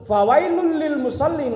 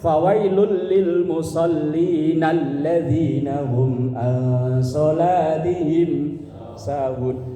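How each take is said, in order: First: The reading breaks off right after musallin. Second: The phrase runs on without stopping after musallin. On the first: Woe to those who pray. The speaker calls it wrong. "Kalau diputus" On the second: Woe to those who are heedless of their prayer. The speaker calls it right. "cara membacanya harus lanjut"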